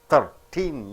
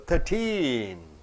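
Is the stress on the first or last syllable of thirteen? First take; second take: first; last. First: The stress is on the first syllable. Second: The stress is on the last syllable. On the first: "you are not stressing on teen, you are stressing on thir" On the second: "you have to stress the last syllable"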